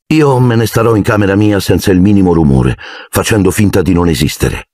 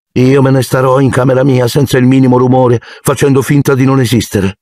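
First: Expressionless. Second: Flat tone. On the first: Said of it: "disse Harry con voce inespressiva". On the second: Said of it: "ripeté Harry in tono piatto". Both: A narrator's reading.

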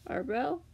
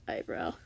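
First: "Eyebrow?" as a doubtful question; questioned pronunciation. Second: "Eyebrow." as a settled statement; corrected pronunciation. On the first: Reader doubts their own word, questioning "Eyebrow?". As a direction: say "Eyebrow?" higher, rising at the end. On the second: Reader settles how to say it, stating "Eyebrow.". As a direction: say "Eyebrow." low, as a confirmed word. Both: Shown as a demonstration. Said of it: "that's the way to say it".

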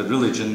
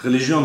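First: "religion" said the English way; English pronunciation. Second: "religion" with a French pronunciation; accented French pronunciation. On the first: Lecturer giving the English term to the audience, English pronunciation. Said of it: "İngilizce'de religion". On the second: Lecturer checking the word with a colleague, accented French pronunciation. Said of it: "Benim Fransızca telaffuzum biraz böyle aksanlı". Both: Shown as a demonstration.

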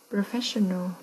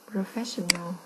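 The two takes are said the same way.

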